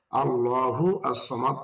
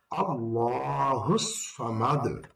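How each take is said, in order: First: Said in the usual way. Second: আল্লাহু সামাদ joined, no আস, said slowly; joined reading. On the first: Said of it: "আল্লাহু আস-সামাদ তখন না পড়ে". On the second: Shown as a demonstration. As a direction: run আল্লাহু straight into সামাদ. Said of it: "পড়তে হবে". (মিলিয়ে ধীরে আল্লাহু সামাদ)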